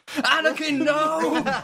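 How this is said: It is said with strong, intense emotion.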